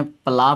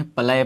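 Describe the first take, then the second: First: "प्ला" with a long aa vowel; "प्ला" pronunciation. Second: "प्लय" with an English-style ae vowel; "प्लय" pronunciation. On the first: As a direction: say "प्ला" with an open aa. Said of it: "कई लोग जो है प्ला पढ़ लेते हैं". ("प्ला" में लंबा आ बोलें) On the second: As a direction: say "प्लय" with ae instead of aa. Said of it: "कई लोग जो है प्लय पढ़ते हैं". ("प्लय" में आ की जगह ऐ बोलें) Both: Shown as a demonstration.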